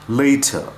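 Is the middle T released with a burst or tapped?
burst. The T is released with a burst of air.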